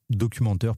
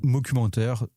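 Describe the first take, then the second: First: Said in the usual way. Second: "Documentaire" said as "mocumentaire", with an M sound at the start; mockumentary word. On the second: Shown as a demonstration. Repeating the new word mockumentaire back to his co-host. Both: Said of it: "ah oui, moqueur".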